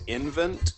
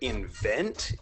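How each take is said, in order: First: It sounds like the start of inventory. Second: It sounds like the start of invention.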